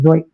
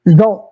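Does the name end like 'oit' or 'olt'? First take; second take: oit; olt. First: The name ends with an 'oit' sound. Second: The name ends with an 'olt' sound. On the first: This is how people from his country say it. The speaker calls it right. "that's how you pronounce it" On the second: This is how the speakers' own circle says it. The speaker calls it wrong. "I know that's not how they say it"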